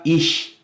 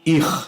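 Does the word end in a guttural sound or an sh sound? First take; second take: sh; guttural. First: The word ends in a soft sh sound. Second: The word ends in a throaty r sound. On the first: This is the usual German pronunciation. "o C H alemão, que tem um som mais de sh" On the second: "era falado pelos judeus como r"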